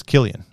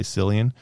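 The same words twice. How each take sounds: First: "Killian" with a hard K at the start; hard-C pronunciation. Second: "Cillian" with an S sound at the start; soft-C mispronunciation. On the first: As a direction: say "Killian" as KILL-ee-un. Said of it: "that's how you pronounce his name". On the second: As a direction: say "Cillian" as SILL-ee-un. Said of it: "A lot of people say Cillian". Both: Shown as a demonstration.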